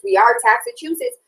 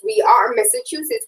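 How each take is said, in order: First: Taxachusetts punched and higher as the punchline; stress on Taxachusetts. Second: Said in the usual way. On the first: Shown as a demonstration. Host mocking state taxes, stress on Taxachusetts. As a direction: land the pun on Taxachusetts, pitch up on it.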